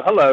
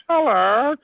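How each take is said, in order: First: Said in the usual way. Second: High-pitched meow shaped like a word; cat's hello. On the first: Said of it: "And I go". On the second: Retold or imitated. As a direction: answer back as a cat, rising. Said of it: "And he goes".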